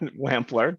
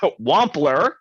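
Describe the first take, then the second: First: The first syllable sounds like 'wamp'. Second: The first syllable sounds like 'womp'. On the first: The speaker calls it wrong. "not Wampler" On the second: The speaker calls it right. "so Wampler"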